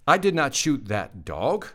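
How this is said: The voice rises at the end. The speaker is asking. "Question mark"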